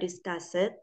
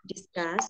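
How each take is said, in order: First: The ending is said as a separate syllable. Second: The ending blends in with no extra syllable. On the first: The speaker calls it wrong. "jadi bukan discussed ya" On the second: The speaker calls it right. "tapi discussed"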